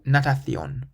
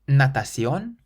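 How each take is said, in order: First: The c sounds like a th. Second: The c sounds like an s. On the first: "or a Th" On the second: "either like a S"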